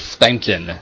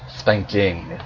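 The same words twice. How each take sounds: First: The final g sound is dropped. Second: The final g sound is pronounced. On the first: "why do we cut the G off like that?" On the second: "and not spanking"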